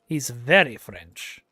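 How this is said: The words carry barely any French accent. The speaker calls it wrong. "that's definitely not a French accent"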